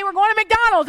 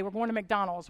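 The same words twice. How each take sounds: First: High, loud "McDonald's" announcement; excited. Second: Said in the usual way. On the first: Retold or imitated. Mom announcing McDonald's to excited kids. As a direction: sell "We're going to McDonald's" as a thrill. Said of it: "But if I say". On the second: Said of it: "If I say".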